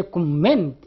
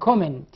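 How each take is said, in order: First: Verb comment, second syllable stressed and drawn out. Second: Noun Comment, first syllable stressed. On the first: Teacher contrasting verb with noun, stress on the second syllable of comment. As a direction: hit the last syllable of comment. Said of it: "position of the stress is different". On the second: Teacher showing the noun form, stress on the first syllable of Comment. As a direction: hit the opening syllable of Comment. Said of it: "stress at the very begin". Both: Shown as a demonstration.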